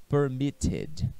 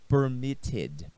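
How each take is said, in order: No difference in how they are said.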